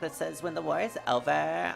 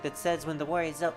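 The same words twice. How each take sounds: First: It is said in a Valley Girl accent. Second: It is said in a plain, ordinary accent. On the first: "I'm supposed to do the Valley Girl accent" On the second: "I completely forgot I'm supposed to do the Valley Girl accent"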